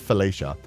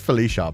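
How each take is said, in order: First: The name is said with a 'Fellatio'-like start. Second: The name is said with a plain start. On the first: The speaker calls it wrong. "I pronounced that wrong" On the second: The speaker calls it right. "It's just Felicia"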